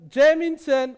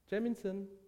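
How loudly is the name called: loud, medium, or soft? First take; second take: loud; soft. First: The name is called loudly with a raised voice. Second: The name is called calmly and softly. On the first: The caller insists on being heard. "seine Stimme erhebt" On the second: The caller is still calm.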